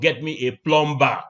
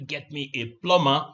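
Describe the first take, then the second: First: The B in plumber is pronounced. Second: The B in plumber is silent. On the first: The speaker calls it wrong. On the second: The speaker calls it right. "The B is silent"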